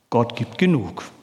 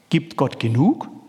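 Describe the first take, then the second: First: It is said as an exclamation, falling at the end. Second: It is said as a question, rising at the end.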